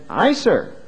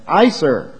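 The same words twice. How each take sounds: First: Overly submissive yes, a touch higher; bow and scrape with the words; mock fawning son. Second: Lightly mocking yes sir; fawning. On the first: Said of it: "almost overly submissive, almost fawning". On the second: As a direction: wrap all the false eagerness into two words. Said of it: "it's all wrapped up in that".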